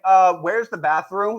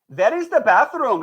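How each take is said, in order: First: Said in the usual way. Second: English in a Pakistani accent. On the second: Shown as a demonstration. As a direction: say "bathroom" with a Pakistani accent, "pathroom". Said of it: "speak English with a Pakistani accent".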